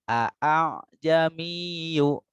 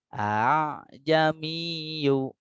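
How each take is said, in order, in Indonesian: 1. Dua vokal pembuka diucapkan sebagai bunyi terpisah. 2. Dua vokal pembuka menyatu menjadi satu bunyi. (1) "tidak seperti itu" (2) "cukup dibaca satu saja"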